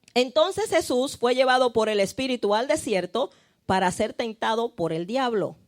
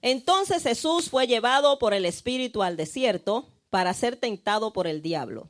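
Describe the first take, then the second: Both takes have the same delivery.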